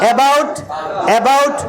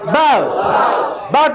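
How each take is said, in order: First: The first vowel is a narrow 'eh' sound. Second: The first vowel is an open 'ah' sound. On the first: The speaker calls it wrong. "এ sound হবে না" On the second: The speaker calls it right. "মুখটা হা করার মধ্যে"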